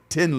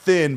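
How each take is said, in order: First: The word begins with a plain T sound. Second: The word begins with a TH sound. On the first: The speaker calls it right. "but Tin Lizzy" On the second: The speaker calls it wrong. "is not Thin"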